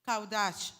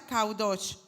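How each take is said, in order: First: Kaudash said as "kaw-dahsh", with an open a in the second syllable; Hebrew pronunciation. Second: Kaudosh said as "kau-dosh", with a rounded o in the second syllable; Hebrew pronunciation. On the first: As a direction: say Kaudash slowly, stress the first syllable kau, open a. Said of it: "Así se pronuncia". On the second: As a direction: say kaudosh slowly and deliberately, rounded o. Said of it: "se pronuncia kaudosh". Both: Shown as a demonstration.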